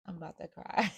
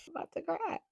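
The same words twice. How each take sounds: First: Said in the usual way. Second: High, choked up, laughing through tears; real tears breaking into a laugh; tearful laugh. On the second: Real, not acted.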